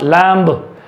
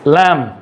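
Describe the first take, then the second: First: A b sound is pronounced at the end. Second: No b sound is pronounced at the end. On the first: The speaker calls it wrong. "Not लैम्ब" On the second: The speaker calls it right. "It's लैम ... बी silent है"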